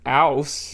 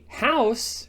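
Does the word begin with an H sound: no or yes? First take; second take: no; yes. First: The word starts without an H sound. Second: The word starts with an H sound. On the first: "instead of ouse" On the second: "So I might say house"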